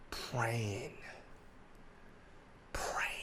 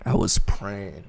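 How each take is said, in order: First: Whispered. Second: Said in the usual way. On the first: Shown as a demonstration. Echoing his own prayer to the friend as a whisper. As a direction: whisper the word Praying.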